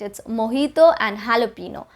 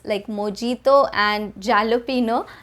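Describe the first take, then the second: First: The J is said as an H sound. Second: The J is said as an English J. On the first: The speaker calls it right. "The J is pronounced as an H sound" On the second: The speaker calls it wrong. "pronounce it the way it looks"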